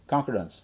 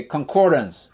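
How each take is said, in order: First: Concordance stressed on CON, asking which is right; stress on first syllable. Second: Concordance with COR stressed, as corrected; stress on second syllable. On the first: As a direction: put the weight on CON in Concordance. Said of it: "how do you say that". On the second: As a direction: repeat concordance leaning firmly on COR. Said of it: "second syllable". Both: Shown as a demonstration.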